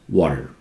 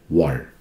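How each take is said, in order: No difference in how they are said.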